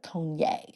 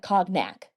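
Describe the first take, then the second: First: The word is said unlike its spelling. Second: The word is said the way it is spelled. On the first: The speaker calls it right. "It's like cognac or something like that" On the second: The speaker calls it wrong. "It looks like cognac, but it's not pronounced that"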